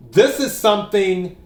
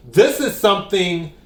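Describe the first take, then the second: No difference in how they are said.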